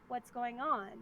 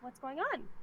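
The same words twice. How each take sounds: First: The pitch drops at the end of the question. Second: The pitch rises at the end of the question.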